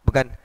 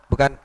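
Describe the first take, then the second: The two takes are said the same way.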